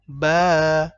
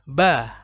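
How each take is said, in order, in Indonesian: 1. Vokalnya ditahan dua harakat. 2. Vokalnya ditahan sebentar.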